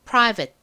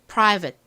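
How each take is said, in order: Both takes have the same delivery.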